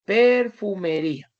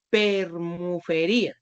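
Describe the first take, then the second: First: "Perfumería" said cleanly, in the right order per-fu-me-ría; corrected "Perfumería", said as it should be. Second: "permufería" said slowly, with the m and f swapped; slow demo of the misspelling "permufería"; misspelt permufería. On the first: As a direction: spell it out right, "Perfumería", with a firm fall. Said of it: "Entonces, mire lo que hace". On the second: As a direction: read out "permufería" slowly, as the wrong spelling. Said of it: "Te resulta que ella escribió permufería". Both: Shown as a demonstration.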